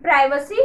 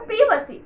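First: "Privacy" with a long "eye" in the first syllable; British or American variant. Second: "privacy" with a short i in the first syllable; alternative pronunciation. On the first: Teacher showing viewers one of two pronunciations, "Privacy" said PRY-vuh-see. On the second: Teacher offering viewers the other pronunciation, "privacy" said PRIV-uh-see. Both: Shown as a demonstration. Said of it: "how will you pronounce this word".

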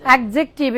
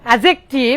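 First: অ্যাডজেক্টিভ with a hard stop before the j; common mispronunciation. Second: অ্যাডজেক্টিভ as "a-jek-tiv", no d; silent d. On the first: Teacher repeating the wrong form, অ্যাডজেক্টিভ with a stop before j. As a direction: say অ্যাডজেক্টিভ as "ad-jek-tiv", consonant not dropped. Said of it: "এটা মূলত ভুল". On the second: Teacher showing students the correct form, অ্যাডজেক্টিভ with silent d. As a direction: model অ্যাডজেক্টিভ firmly with the d left out. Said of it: "ডির উচ্চারণটা হবে না". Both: Shown as a demonstration.

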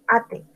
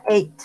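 First: ATE read as Spanish "AH-teh"; spelling pronunciation. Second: ATE said as English "eight"; English ATE with a silent final E; correct English pronunciation. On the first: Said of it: "como ate". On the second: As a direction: say ATE in one syllable, like "eight". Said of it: "se pronuncia ate". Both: Shown as a demonstration.

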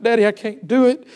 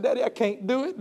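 First: Said in the usual way. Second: Soft, tearful plea to daddy. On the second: Retold or imitated. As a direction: beg quietly through tears. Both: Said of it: "I began to weep and I began to cry".

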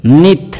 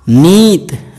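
First: नित with a quick, short ि; short vowel. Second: नीत with a long, stressed ी; long vowel. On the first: Teacher reading the word for every day, नित said short. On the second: Teacher reading the word for brought, नीत drawn out. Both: Shown as a demonstration. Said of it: "उसका वाचन मैं आपको".

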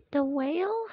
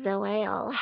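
First: Said in the usual way. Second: Doubtful echo. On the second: Acted. Other toy echoes doubtfully.

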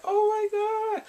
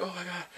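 First: High, drawn-out gasp of amazement; hammed-up starstruck exclamation; mock awe. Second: Soft, understated reaction; hushed little aside of amazement; subdued awe. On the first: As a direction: swoon over it in a high voice. Acts out amazement at her singing. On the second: Acted. Repeats the reaction, toned down.

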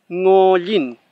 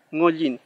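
First: Ngollin with a strong back nasal ng, louder; clear ng. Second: Said in the usual way. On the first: Shown as a demonstration. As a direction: say ngollin slowly for learners. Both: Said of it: "Esa sería la forma de pronunciar este sonido".

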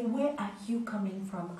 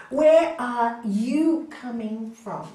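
First: Said in the usual way. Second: Slow, loud, stress on "Where"; slow emphasis. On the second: Shown as a demonstration. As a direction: drive the question home slowly. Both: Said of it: "Ask yourself".

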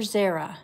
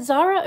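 First: Zara said ZAIR-a, first syllable like "air". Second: Zara said ZAH-ra, open first vowel. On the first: Streamer offering the other name reading, Zara as ZAIR-a. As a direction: say Zara to rhyme with Sarah. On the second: Streamer checking a viewer's name, Zara as ZAH-ra. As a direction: say Zara with "ah" as in car. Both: Shown as a demonstration. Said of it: "Is it Zara or Zara?".

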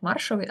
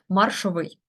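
First: МАРшовий, stressed on the first syllable; common first-syllable stress. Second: МаршовИЙ, stressed on the last syllable; stress on ending. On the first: Teacher quoting what everyone says, маршовий stressed on МАР. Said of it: "нібито всі говорять маршовий". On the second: Teacher correcting common usage, маршовий stressed on its ending. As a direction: say маршовий landing firmly on -ВИЙ. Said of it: "всі говорять маршовий, але маршовий". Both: Shown as a demonstration.

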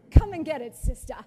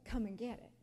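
First: A much louder jeering dare; loud mocking taunt. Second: Sly taunt. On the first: Voicing the dog taunting the guest, loud mockery. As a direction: bellow it like a gloating bully. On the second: Retold or imitated. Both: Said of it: "mocking me".

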